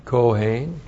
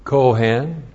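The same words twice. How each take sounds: First: Kohen said "koh-HAYN", with a long ay; Hebrew pronunciation. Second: Kohen said with a short open vowel, "KOH-hen"; familiar name pronunciation. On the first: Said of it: "the ones doing the weeping are the Kohen". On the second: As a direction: say Kohen as the everyday surname, short second vowel. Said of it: "you've seen the name". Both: Shown as a demonstration.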